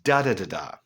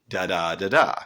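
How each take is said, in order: First: The first syllable is stressed, the second unstressed. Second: The first syllable is unstressed, the second stressed. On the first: The break in rhythm emphasizes the totality of the darkness. "But instead it's" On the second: The line keeps its regular rhythm. "we would expect it in a line of iambic pentameter"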